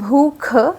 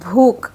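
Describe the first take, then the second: First: Both consonants are aspirated, with breath. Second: One consonant loses its breathy aspiration. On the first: The speaker calls it right. "सही शब्द हैं" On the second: The speaker calls it wrong. "हमारे मुंह से निकलता है"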